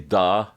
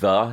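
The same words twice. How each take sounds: First: The word begins with a sound like d. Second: The word begins with a soft th sound. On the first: "he'll say the, like almost like a D" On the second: "instead of saying the"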